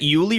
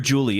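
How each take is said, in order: First: The name begins with a Y sound. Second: The name begins with a J sound. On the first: The speaker calls it right. "it is pronounced like a Y" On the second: The speaker calls it wrong. "I keep calling her Julie"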